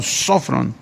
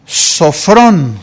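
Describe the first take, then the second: First: Sofrón said SÓ-fron, stress on the first o; sofrón, first o carries the accent, soft and falling. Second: Said in the usual way. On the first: Shown as a demonstration. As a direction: land sofrón on its first syllable. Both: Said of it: "Tiene acento en la primera O".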